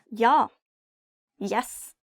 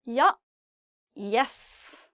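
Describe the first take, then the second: No difference in how they are said.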